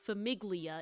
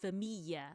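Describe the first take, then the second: First: The middle is said with a hard g and l. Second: The middle is said with a y-like sound. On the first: The speaker calls it wrong. "So it's not famiglia" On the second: The speaker calls it right. "It's like a y noise"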